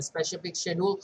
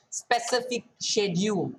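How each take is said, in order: First: "specific schedule" with a sh sound in "specific", like "speshific"; tongue-twisted slip. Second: "Specific schedule" said carefully, with a clean s sound in "Specific"; re-say "Specific schedule" distinctly, "spesific", not "speshific"; corrected pronunciation. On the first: Tutor tripping over "specific schedule" while talking viewers through settings, "speshific" slip. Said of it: "words might get twisted". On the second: Tutor fixing a slip for viewers, "Specific schedule" carefully pronounced with a clear s. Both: Real, not acted.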